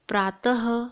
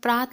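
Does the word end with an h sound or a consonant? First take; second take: h sound; consonant. First: The word ends with a breathy h sound. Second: The word ends without a breathy h sound. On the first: "दो बिंदु लगा देंगे तो हो जाएगा प्रातः" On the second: "जब हम प्रात लिखते हैं"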